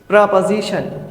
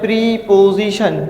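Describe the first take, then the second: First: The first syllable has a short reduced vowel. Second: The first syllable has a long 'ee' vowel. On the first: "इसका जो सही pronunciation है" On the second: "school में हम पढ़ते हैं प्रीपोजिशन"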